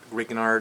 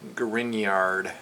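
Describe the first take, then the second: First: The middle G is sounded as a hard G. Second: The middle 'gn' is sounded like 'ny'. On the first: The speaker calls it wrong. "It's not Grignard" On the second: The speaker calls it right. "the G is silent. Almost like a, there's a Y in there"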